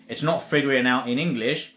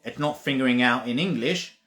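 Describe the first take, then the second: No difference in how they are said.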